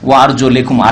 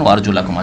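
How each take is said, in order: First: The vowel after the L is an I. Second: The vowel after the L is an A. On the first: The covered feet are to be wiped. "তবে একটি কেরাতে ওয়ার জোলেকুম আছে" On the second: The feet are to be washed. "কোরআনে পড়ে দেখুন ওয়ার জোলাকুম আছে"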